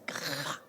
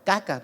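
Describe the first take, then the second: First: The middle consonant is a raspy jota sound. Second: The middle consonant is a hard k sound. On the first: The speaker calls it right. "se dice caja" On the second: The speaker calls it wrong. "pronunciaba pésimo, caca, para decir caja"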